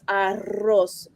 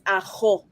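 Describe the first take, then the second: First: The R is made at the front. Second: The R is made in the throat. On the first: "When it's double R, it's arroz" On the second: "but my aunt says ajo"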